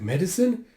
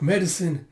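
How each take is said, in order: First: "Medicine" rising into a question; puzzled echo. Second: "Medicine" with a falling end; plain answer. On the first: Querying the answer, "Medicine" said with a questioning rise. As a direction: repeat "Medicine" as a query, pitch climbing. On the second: Explaining the errand, "Medicine" said as a falling statement. Answer, then echoed as question. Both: Retold or imitated.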